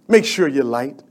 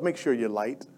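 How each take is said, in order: First: Said in the usual way. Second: "Make sure you're light" said much softer, almost to himself. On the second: Shown as a demonstration. Preacher urging the church to shine, softer. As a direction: drop the volume and let it sink in.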